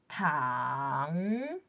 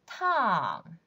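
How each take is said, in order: First: The pitch dips low and then rises. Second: The pitch falls sharply from high. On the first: "Third tone" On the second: "Fourth tone"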